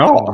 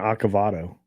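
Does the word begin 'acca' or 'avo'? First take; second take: avo; acca. First: The word begins with 'avo' as usual. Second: The word begins with 'acca' instead of 'avo'. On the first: The speaker calls it right. "I can say avocado" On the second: The speaker calls it wrong. "I intentionally mis- mispronounced that one"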